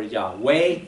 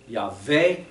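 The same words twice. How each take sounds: First: Yahweh said as "yah-WAY"; W pronunciation. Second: Yahweh said as "yah-VAY"; V pronunciation. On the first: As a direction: say Yahweh with a clear W, low then rising. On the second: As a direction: say Yahweh with a V for the W, low then rising. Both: Shown as a demonstration. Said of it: "it's often pronounced V".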